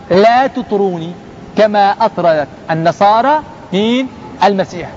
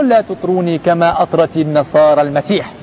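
First: "لا تطروني" slow and set apart, then a pause before "كما أطرت"; emphatic repetition. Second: Said in the usual way. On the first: Shown as a demonstration. Preacher drilling the Prophet's warning to listeners, "لا تطروني" slow and emphatic. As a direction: break it up slowly, "مين؟" rising as a question, "المسيح" falling as the answer. Repeats quote piece by piece to teach.

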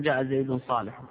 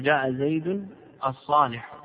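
First: Said in the usual way. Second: الصالح said clearly with the article al; teacher stresses الصالح with its al to show the right form. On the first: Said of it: "ما تقول". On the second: Shown as a demonstration. Teacher to students, the correct example with الصالح stressed. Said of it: "تقول".

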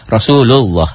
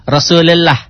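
First: Said in the usual way. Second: "Rasulullah" pitched high as the wrong form; wrong reading. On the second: Shown as a demonstration. Teacher showing students the wrong reading, exaggerated. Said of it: "Jangan Rasulullah".

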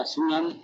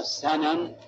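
First: سنن pronounced "sunan", u after the first s; damma on the seen. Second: سنن pronounced "sanan", a after the first s; fatha on the seen. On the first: Teacher explains the plural of sunna to students, sunan with damma. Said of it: "بضم السين". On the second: Teacher explains the singular word to students, sanan with fatha. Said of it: "بالفتح". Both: Shown as a demonstration.

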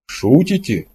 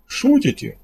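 First: Mildly puzzled question, only slightly raised; bewildered, the smile gone; confused disbelief. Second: High-pitched question through a forced smile; nervously hoping it's a joke; uneasy attempted joking. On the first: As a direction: ask it again at a loss. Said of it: "второй раз произнёс Кордылов и признался". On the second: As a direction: force a little smile while asking, pitch up. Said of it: "выдал из себя улыбку". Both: A narrator's reading.

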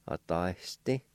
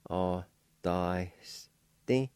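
First: Said in the usual way. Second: Authenticity as slow, separate a, da, s, ti; very slow sounding-out with a faint H; syllable by syllable. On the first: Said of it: "I'll pronounce these words". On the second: Shown as a demonstration. Teacher repeats number four for learners, syllable by syllable. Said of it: "faint H sound right for the Y".

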